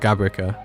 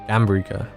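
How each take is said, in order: First: The name is said without an m sound. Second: The name is said with an m sound. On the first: The speaker calls it wrong. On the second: The speaker calls it right.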